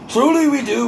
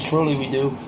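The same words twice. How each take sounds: First: Sudden high, emphatic repeat. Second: Said in the usual way. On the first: Shown as a demonstration. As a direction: jump way up and insist. Repeats line much higher, louder.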